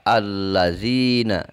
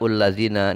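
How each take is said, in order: First: The word begins with an a vowel. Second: The word begins with a u vowel. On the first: The speaker calls it right. "Dibaca allazina" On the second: The speaker calls it wrong. "tidak ullazina"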